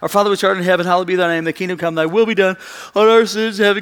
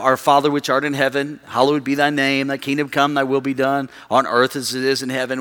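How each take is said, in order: First: It is rattled off quickly, like a statement. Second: It is said at a normal pace.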